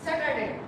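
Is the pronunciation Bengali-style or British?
Bengali-style. It uses the common Bengali-style pronunciation. "আমরা এটাকে normal কি বলি?"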